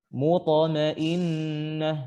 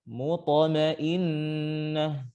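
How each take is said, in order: No difference in how they are said.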